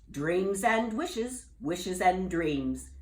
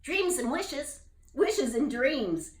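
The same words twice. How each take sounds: First: Slow, knowing wizard; with a wink. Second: Slow, knowing bullfrog voice, higher; with a wink. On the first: Wizard teasing Jubal with a knowing wink. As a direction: savour each word, sly and slow. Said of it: "the wizard said with a wink". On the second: Jubal echoing the wizard with a wink. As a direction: wink as you say it. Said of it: "Jubal said with a wink". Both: Acted.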